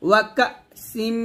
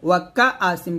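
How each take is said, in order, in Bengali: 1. গলা-টান হঠাৎ করে শব্দাংশটি বন্ধ করে দেয়। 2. গলা-টানের পরে একটি স্বরধ্বনি আসে। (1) "ধাক্কা দিয়ে বলবেন" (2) "ওয়াকা আসিম বলবেন না"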